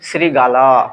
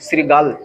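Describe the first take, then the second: First: The word ends with an extra 'o' vowel. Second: The word ends on the bare consonant 'l'. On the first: The speaker calls it wrong. "অধ্বনি কিন্তু এখন পর্যন্ত এখানে আছে, এই জন্য এটা ভুল" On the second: The speaker calls it right. "সঠিক উচ্চারণ কি"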